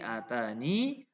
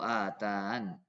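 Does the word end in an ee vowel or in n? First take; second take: ee vowel; n. First: The word ends with a final ee vowel. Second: The word ends on the n sound. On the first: The final ya is kept when stopping. "kalau berhenti atani" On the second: The final ya is dropped when stopping. "membuang ya, jadi atan"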